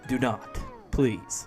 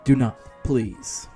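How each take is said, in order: First: It is said in the reader's normal voice. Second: It is said in a put-on character voice.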